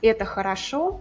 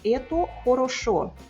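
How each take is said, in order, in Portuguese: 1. As vogais o não acentuadas soam como a. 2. Toda vogal o é pronunciada como um o pleno. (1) "a pronúncia natural é com muitos As" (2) "pode até falar ela com todos os"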